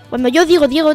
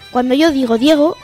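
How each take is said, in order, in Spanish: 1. La frase se dice a velocidad rápida. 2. La frase se dice a velocidad normal. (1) "Y a velocidad rápida" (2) "A velocidad normal"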